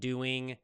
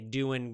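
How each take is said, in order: First: The words end with a full ng sound. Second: The words end without the g sound.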